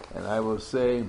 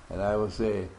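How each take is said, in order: Both takes have the same delivery.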